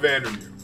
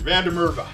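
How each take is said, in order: First: The name is run together in a clipped form. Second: The name is said fully with every syllable. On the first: The speaker calls it wrong. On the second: The speaker calls it right.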